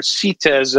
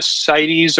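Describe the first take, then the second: First: "cites" said the French way, as SEE-tez; French pronunciation. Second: Said in the usual way. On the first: Shown as a demonstration. Giving a podcast host the French name for the certificate, "cites" pronounced SEE-tez. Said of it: "as the French say".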